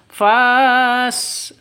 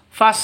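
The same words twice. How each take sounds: First: The vowel after f is long. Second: The vowel after f is short. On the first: The speaker calls it wrong. "Bukan dibaca fas, salah" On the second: The speaker calls it right. "Maka langsung ke fa, fas begitu"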